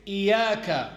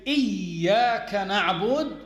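First: "إياك" with a single short ya, iyaka; a deliberately faulty "إياك" with the ya not stressed; unstressed ya. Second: "إياك" with the ya doubled and held, iyyaka; "إياك نعبد" said correctly with the stressed ya. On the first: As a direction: say "إياك" lightly, without doubling the ya. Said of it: "without stressing on the ya". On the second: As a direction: lean hard on the doubled ya in "إياك". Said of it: "When you say". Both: Shown as a demonstration.

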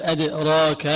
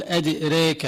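First: أدراك with an open long a; plain a. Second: أدريك said edirek, the a bent to e; imala. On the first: Teacher gives the standard reading, open vowel. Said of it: "بدل أن يقول". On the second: Teacher gives the imala reading, vowel leaning to e. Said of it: "هذه يقال لها إمالة". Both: Shown as a demonstration.

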